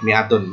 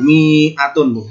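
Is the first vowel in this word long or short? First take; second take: short; long. First: The first vowel is said short. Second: The first vowel is drawn out long. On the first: The speaker calls it right. "tetap dibaca pendek" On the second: The speaker calls it wrong. "tidak dibaca panjang, bukan mi'atun"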